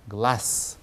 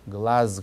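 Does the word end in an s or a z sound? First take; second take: s; z. First: The word ends in a voiceless s sound. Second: The word ends in a voiced z sound. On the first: The speaker calls it right. "글라스 이렇게 발음된다" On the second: The speaker calls it wrong. "글라즈 그러지 않고"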